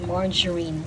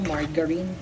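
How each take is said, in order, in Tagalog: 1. Malambot ang g, parang j. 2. Matigas ang g, parang sa "go". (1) "hindi yun hard G. Soft G" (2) "Kung mula bata ako, turo"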